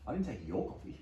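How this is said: The stress is on "your".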